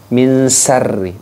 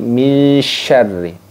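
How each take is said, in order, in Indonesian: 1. Kata ini dimulai dengan bunyi s biasa. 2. Kata ini dimulai dengan bunyi sh yang melebar. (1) "Jadi bukan min sarri" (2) "tapi min syarri"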